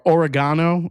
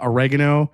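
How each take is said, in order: First: It is said in a British accent. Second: It is said in an American accent.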